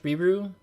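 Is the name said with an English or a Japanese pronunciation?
English. The name is said with an English pronunciation. "I can say it in English"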